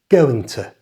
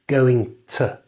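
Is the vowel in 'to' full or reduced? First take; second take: reduced; full. First: The vowel in 'to' is a short schwa. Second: The vowel in 'to' is full and clear. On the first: "The O in it disappears and becomes a small short sound we call the schwa" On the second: "say going to clearly like that"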